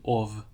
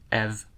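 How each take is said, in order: First: The vowel is an O sound. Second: The vowel is an E sound. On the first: The speaker calls it right. "it's probably just better to use an O here, because it's closer" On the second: The speaker calls it wrong. "a Dutch person reading this would also not read that E as a schwa, it would be ev"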